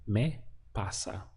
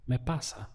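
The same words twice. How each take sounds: First: Slow, careful Spanish model: "Me pasa" drawn out syllable by syllable; teacher slowing down "Me pasa" so students can copy it; slow model answer. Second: Said in the usual way. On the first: Shown as a demonstration. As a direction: lay out "Me pasa" slowly for learners to copy. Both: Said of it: "So how would you say that".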